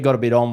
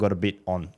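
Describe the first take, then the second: First: It sounds light, casual and upbeat. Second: It sounds hesitant, heavy and troubled. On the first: The person is simply busy with lots happening. "which is just saying, got heaps happening" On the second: The person is struggling with hard things. "oh, no, mate, I, I, I"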